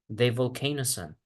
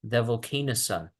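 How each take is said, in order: First: The words are linked smoothly into one. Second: The words are linked smoothly into one.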